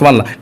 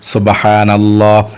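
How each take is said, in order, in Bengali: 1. এটা দ্রুত বলা হয়, তাড়াহুড়ো করে বারবার। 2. এটা ধীরে বলা হয়, এক শ্বাসে একবার। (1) "দ্রুত পড়লে হবে না? না, অনেকে পড়ে" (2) "এক শ্বাসে একবার"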